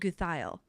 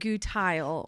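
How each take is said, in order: First: The name is said the Swiss German way. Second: The name is said the English way. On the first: This is the speaker's own family's pronunciation. "that's a Swiss Deutsch, they pronounce it Guthile" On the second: This is the husband's family's pronunciation. "husband's family pronounces it Gutile"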